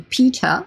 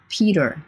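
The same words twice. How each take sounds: First: The middle t is a clear t sound. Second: The middle t is a d-like flap. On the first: "le T de Peter"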